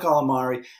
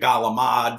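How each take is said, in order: First: It starts with a k and keeps the final vowel. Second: It starts with a g and drops the final vowel. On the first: "I call it calamari" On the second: "I don't fall into the heavy Gavadil, Gabagool"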